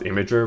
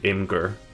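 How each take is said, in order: First: The word is said as three syllables, im-a-jer. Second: The word is said as two syllables, im-gur. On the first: This is the official pronunciation. "It's technically supposed to be pronounced Imager" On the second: This is the speaker's habitual pronunciation. "I always pronounce it Imgur"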